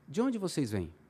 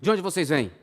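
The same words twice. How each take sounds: First: It is asked in a gentle, soft tone. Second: It is asked in a rough, harsh tone.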